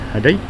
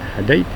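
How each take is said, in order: First: The word stops short on its final consonant. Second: The word stops short on its final consonant.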